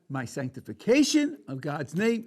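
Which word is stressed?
sanctification. The stress falls on the word sanctification. The act of honoring God seems unimportant. "One way to portray it the way that I just said"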